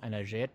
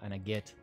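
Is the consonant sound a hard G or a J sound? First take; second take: J sound; hard G. First: The consonant is a soft J sound. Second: The consonant is a hard G sound. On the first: "instead of saying" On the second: "an Egyptian dialect where the G sounds are G"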